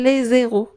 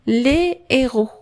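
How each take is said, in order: First: A z sound links the two words together. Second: The words are said separately, with no z link. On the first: It means the zeros. The speaker calls it wrong. "ما تسترجعش les zéros ولا قلت الابطال لي زيرو انا تنقول صفر" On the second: It means the heroes. The speaker calls it right. "تسترجع les héros"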